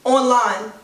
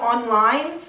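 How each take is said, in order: First: "online" said as two chopped up words, on and line; New York online. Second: "online" said as one smooth word; standard online. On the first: Vlogger showing how New Yorkers say it. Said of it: "we tend to say". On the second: Vlogger showing the standard way before the New York one. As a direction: say "online" the usual way, smooth and joined. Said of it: "instead of saying". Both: Shown as a demonstration.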